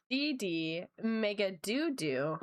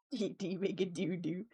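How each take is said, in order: First: D D Mega Doo Doo drawn out slowly, each syllable spaced; slow deliberate mispronunciation. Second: D D Mega Doo Doo said through a laugh; laughing repeat. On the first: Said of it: "it's bad". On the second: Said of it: "you missed D D Mega Doo Doo". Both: Shown as a demonstration.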